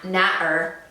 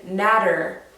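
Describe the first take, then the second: First: The middle consonant is dropped, not sounded. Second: The middle consonant sounds like a soft D. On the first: "they'll just skip it out altogether" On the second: "like with a D"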